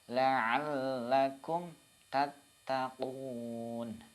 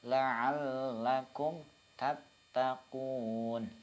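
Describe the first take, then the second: No difference in how they are said.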